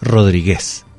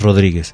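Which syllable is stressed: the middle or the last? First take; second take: last; middle. First: The stress is on the last syllable. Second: The stress is on the middle syllable. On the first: This is how the name reads without the written accent. The speaker calls it wrong. "si a Rodríguez no le pone el acento" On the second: This is the name as it is meant to be said. The speaker calls it right. "no es Rodríguez"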